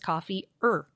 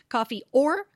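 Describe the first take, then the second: First: The word or is reduced to schwa. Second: The word or is said in full. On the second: "that or becomes reduced to that schwa"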